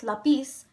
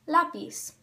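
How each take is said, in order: First: "lápiz" wrongly stressed on PIZ, the last syllable. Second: "lápiz" stressed on LÁ, the first syllable. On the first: Teacher showing the mistake, "lápiz" stressed on last syllable. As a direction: say "lápiz" with the weight on the end. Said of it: "The word is not pronounced". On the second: Teacher showing the correct word, "lápiz" stressed on first syllable. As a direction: say "lápiz" with the weight on lá. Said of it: "it's pronounced". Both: Shown as a demonstration.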